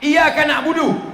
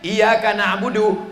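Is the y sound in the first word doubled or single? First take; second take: single; doubled. First: The y sound in iyyaka is single. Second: The y sound in iyyaka is doubled. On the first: To the sun we worship. The speaker calls it wrong. "Tidak pakai tasdid" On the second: You alone we worship. The speaker calls it right. "pakai tasdid"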